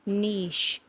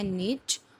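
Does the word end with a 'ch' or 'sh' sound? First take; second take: sh; ch. First: The word ends with an 'sh' sound. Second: The word ends with a 'ch' sound. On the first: "British जो है वो एंड पे अपने साथ में शी लगाते हैं" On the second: "इसको अमेरिकन इंग्लिश में बोलते हैं नीच"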